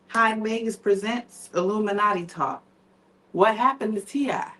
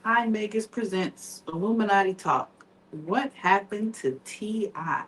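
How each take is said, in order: First: It is said loudly, with more feeling. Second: It is said quietly, with little feeling.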